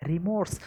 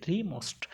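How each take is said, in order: First: রিমোর্স said as rimors, ending on a plain s; রিমোর্স with the usual English ending, rimors; standard pronunciation. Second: রিমোস্ট said as rimost, a hard st at the end; রিমোস্ট twisted to rimost so it sounds like most; memory-trick pronunciation. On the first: Teacher giving the word as written, with the standard ending. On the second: Teacher giving students the bent pronunciation rimost as a memory hook. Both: Shown as a demonstration. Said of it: "অন্যরকমভাবে, হ্যাঁ, pronunciation করি".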